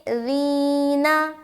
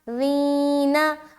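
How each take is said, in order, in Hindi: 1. यह नरम, हल्की z ध्वनि से शुरू होता है। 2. यह नरम, हल्की z ध्वनि से शुरू होता है।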